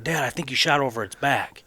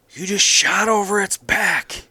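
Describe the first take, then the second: First: Said in the usual way. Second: High, loud, drawn-out disbelief; incredulous outcry. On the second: Retold or imitated. Son to dad after the missed shot, loud incredulous cry. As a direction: cry it out slowly, stunned by the miss.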